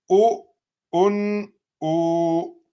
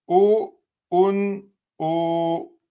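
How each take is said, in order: Both takes have the same delivery.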